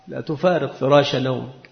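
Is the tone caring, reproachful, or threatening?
threatening. It is said in a menacing, threatening tone. The listener will face consequences for staying in bed. "متى تكون هذه الجملة على سبيل التهديد؟ ... يعني سترى"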